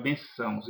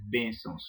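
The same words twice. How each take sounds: First: "bençãos" wrongly stressed on the last syllable, ben-ÇÃOS; mispronounced stress. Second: "bênçãos" stressed on the first syllable, BÊN-çãos; correct stress. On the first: Teacher showing how some people say it, stress on final syllable of "bençãos". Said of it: "algumas pessoas que falam". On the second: Teacher giving the correct pronunciation, BÊN stressed in "bênçãos". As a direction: hit BÊN in "bênçãos", let çãos fall away. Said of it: "a pronúncia correta é bênçãos". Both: Shown as a demonstration.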